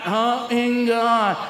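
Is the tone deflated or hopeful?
deflated. It sounds flat and hopeless.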